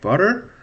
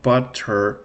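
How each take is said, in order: First: The middle t is a quick tap, syllables connected. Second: The middle t is a clear, separate t sound. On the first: The speaker calls it right. "it's like when you say butter" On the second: The speaker calls it wrong. "not butter like like that, okay? Um, not like the British butter"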